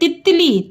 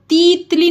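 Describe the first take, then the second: First: The first vowel is short. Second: The first vowel is long. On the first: The speaker calls it right. "छोटी की मात्रा ये हुई तित" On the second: The speaker calls it wrong. "तीतली नहीं है"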